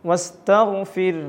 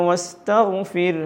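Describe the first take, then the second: The two takes are said the same way.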